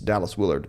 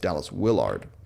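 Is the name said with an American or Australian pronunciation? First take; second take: American; Australian. First: The name is said with an American pronunciation. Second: The name is said with an Australian pronunciation. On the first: "If you're in the States" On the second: "If you're in Australia"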